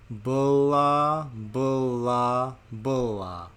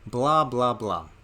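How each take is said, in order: First: It is said very slowly, slowest of all. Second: It is said at a normal speed. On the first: "And even slower still" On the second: "say it with me"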